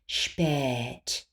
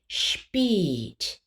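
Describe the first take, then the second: First: The vowel is a wide open e. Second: The vowel is a tense closed e. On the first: "Too open would be spät" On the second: "Too closed would be spät"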